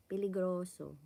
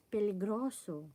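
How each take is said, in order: Both takes have the same delivery.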